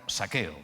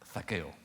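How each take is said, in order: First: The first sound is a plain 's' sound. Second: The first sound is a lisped 'th' sound.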